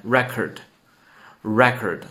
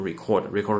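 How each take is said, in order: First: Record said twice as REC-ord, first syllable stressed, slowly; record slow and clear, stress on REC-; noun form, repeat after me. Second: Record said twice as ri-CORD, stress on the second syllable; the wrong take: record as the verb ri-CORD; wrong verb form. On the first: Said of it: "再跟读一遍". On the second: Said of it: "就不能读". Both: Shown as a demonstration.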